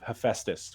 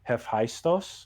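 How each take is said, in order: First: The name is said with an English-style pronunciation. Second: The name is said with a Greek-style pronunciation. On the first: "which is the English spelling" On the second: "in the manga and anime, it said like Hephaistos"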